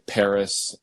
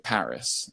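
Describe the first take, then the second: First: The first vowel is plain and narrower. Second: The first vowel is wide and open. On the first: "most people, I think, say Paris" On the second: "the Mid-Atlantic dialect would always say Paris"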